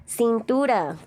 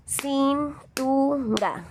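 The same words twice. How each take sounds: First: Said in the usual way. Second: "Cintura" in three slow, high separate beats, cin-tu-ra; syllable by syllable. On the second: Shown as a demonstration. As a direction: draw out each syllable of "Cintura" with gaps between. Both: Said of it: "¿Cuántos golpes de voz?".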